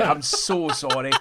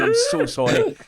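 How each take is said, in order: First: Said in the usual way. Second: Much higher, sing-song sorry; catching himself pointing again, apologises in a squeaky high voice; squeaky mock apology. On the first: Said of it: "I've just realised I've done nothing but point". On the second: Real, not acted. High squeaky sorry. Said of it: "I just clocked myself do it again".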